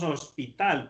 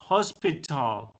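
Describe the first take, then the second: First: The first H is silent. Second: The first H is heard as a breathy sound. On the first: This is the Spanish way of saying it. "la H para nosotros en español es muda" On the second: This is the English way of saying it. "en inglés sí tiene un sonido... como una J"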